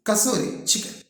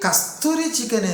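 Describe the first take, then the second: First: The first word has no t sound: Kasuri. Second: The first word has a t sound: Kasturi. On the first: The speaker calls it right. "అది కసూరి chicken" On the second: The speaker calls it wrong. "ఒరే కస్తూరి chicken ఏంద్రా? First correct చేసుకో"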